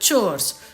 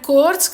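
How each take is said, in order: First: The word begins with a ch sound. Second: The word begins with a k sound. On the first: The speaker calls it right. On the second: The speaker calls it wrong. "కోర్స్ కాదు"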